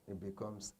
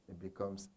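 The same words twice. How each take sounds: The two takes are said the same way.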